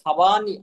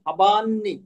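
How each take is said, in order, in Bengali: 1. n ধ্বনিটি ছোট ও একক। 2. n ধ্বনিটি দীর্ঘ ও দ্বিত্ব।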